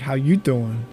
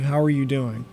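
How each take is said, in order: First: It is said flirtatiously, in Joey's manner. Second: It is said as a plain, genuine question.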